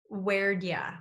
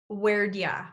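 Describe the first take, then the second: First: It is said as 'where'd ya', with 'did' reduced to 'd' and 'you' to 'ya'. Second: The same.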